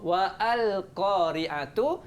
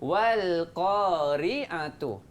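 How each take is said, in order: First: The alif is pronounced as a separate syllable. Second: The alif is skipped, linking wal directly. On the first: The speaker calls it wrong. "dia akan jadi salah" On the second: The speaker calls it right. "Kita langkah alif tu. Alif tu kita tak baca"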